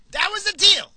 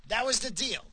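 First: Repeated far higher and much louder; emphatic shout. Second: Said in the usual way. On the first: Real, not acted. Ranting to listeners about the NATO deal, shouting. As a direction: hammer the point home with a yell. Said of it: "repeats the deal, louder". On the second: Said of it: "repeats the deal for emphasis".

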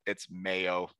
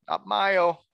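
First: Mayo said as MY-oh, German style. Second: Mayo said as MAY-oh, English style, pitched up. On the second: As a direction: say mayo as MAY-oh with a high scoffing lift. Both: Shown as a demonstration. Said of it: "I need to say mayo".

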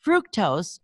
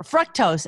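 First: "fructose" said as FROOK-tose; own mistaken pronunciation. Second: "fructose" said as FRUCK-tose; sugar expert's pronunciation. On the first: Host saying a word her own old way, "fructose" as FROOK-tose. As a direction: say "fructose" with an oo in the first syllable. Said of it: "I've been pronouncing that word wrong". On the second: Host correcting herself to the expert's way, "fructose" as FRUCK-tose. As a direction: say "fructose" with a short uh, as in truck. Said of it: "as he says". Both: Shown as a demonstration.

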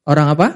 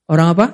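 Both takes have the same delivery.

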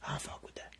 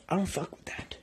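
First: "I don't fuck with that" whispered with no voice; a whispered aside, "I don't fuck with that". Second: Said in the usual way. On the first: Real, not acted. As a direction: breathe "I don't fuck with that" under the breath. Same line repeated in a whisper.

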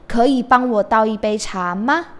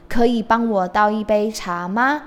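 No difference in how they are said.

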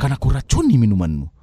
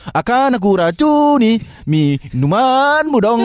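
First: Low dramatic soap villain; lightly voiced sinetron schemer. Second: Slow, high, drawn-out casual take; casual real-life version. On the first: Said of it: "nada sinetron pasti begitu". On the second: Pretend. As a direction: say it like a normal chat. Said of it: "nggak mungkin kita".

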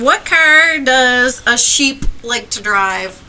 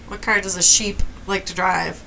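First: Slow joke setup. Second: Said in the usual way. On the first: Shown as a demonstration. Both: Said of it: "This is a, such a dad joke".

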